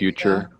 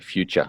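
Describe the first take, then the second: First: It is said with an American accent. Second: It is said with an Australian accent. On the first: "Americans would sort of say more like" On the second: "Australians are more likely to say"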